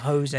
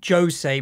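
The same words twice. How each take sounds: First: The name begins with a soft sound. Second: The name begins with a hard J sound. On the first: The speaker calls it wrong. "instead of Jose" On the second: The speaker calls it right. "Portuguese is hard J's"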